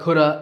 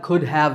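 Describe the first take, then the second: First: The words blend into one short reduced form. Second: Both words are said fully and separately.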